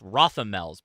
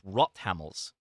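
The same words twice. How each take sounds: First: The name is said with an American pronunciation. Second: The name is said with a German-style pronunciation. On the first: The speaker calls it wrong. "we in America thinks it, it's Rothamels" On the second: The speaker calls it right. "but no, it's Rothamels is the uh, pronunciation, as I'm told"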